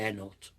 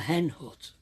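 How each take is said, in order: First: The H sounds at the word starts are dropped. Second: The H sounds at the word starts are pronounced. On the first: The speaker calls it wrong. "people don't know what I mean when I say" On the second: The speaker calls it right. "pronounced all my H's"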